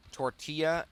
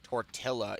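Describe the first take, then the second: First: Said in the usual way. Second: "tortilla" with a hard L sound; pronounced as spelled. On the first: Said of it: "I will use". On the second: Shown as a demonstration. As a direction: say "tortilla" to rhyme with "Godzilla". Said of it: "saying words as how it's spelled".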